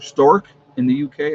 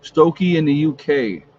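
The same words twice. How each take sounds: First: "Stork" said as one syllable, stork, with a rising end; corrected place name. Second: "Stokey" said as stoh-kee, a first unsure reading; misread place name. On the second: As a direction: reads the name as "Stokey", long o then -key. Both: Real, not acted. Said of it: "Maybe I said that wrong".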